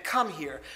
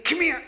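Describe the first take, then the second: First: "come here" lower, clipped, stress on come; stern come here. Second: "come here" high and loud, drawn on here; warm come here. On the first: Speaker showing the punishing "come here", stern and low. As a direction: summon with "come here", hitting come. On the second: Speaker showing the welcoming "come here", high and loud. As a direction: invite with "come here", lifting on here. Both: Shown as a demonstration. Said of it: "there's a difference between".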